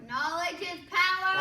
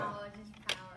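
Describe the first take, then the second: First: It is said forcefully with high energy. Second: It is said sleepily with low energy.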